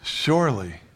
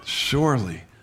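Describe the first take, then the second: Both takes have the same delivery.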